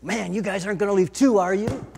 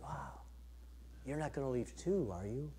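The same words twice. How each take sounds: First: Loud, exasperated question to the disciples; Jesus, fed up with the leaving crowd, louder and frustrated. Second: Much softer, hurt near-murmur; Jesus turning sadly to his disciples, very soft and hurt; hurt and disappointed. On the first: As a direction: throw it at them, fed up and louder. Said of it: "did he say it with frustration and anger?". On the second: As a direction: let it sink, quiet disappointment. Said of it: "probably frustrated or hurt". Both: Retold or imitated.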